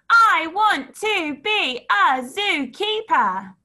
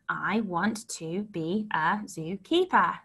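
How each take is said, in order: First: It is shouted in a loud voice. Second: It is spoken in a normal voice. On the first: "Shout it" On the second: "So let's say it"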